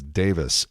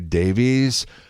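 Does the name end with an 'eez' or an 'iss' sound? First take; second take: iss; eez. First: The name ends with an 'iss' sound. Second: The name ends with an 'eez' sound. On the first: The speaker calls it right. "the British pronunciation is Davis" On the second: The speaker calls it wrong. "For years, we said Ray Davies. And I think that's wrong"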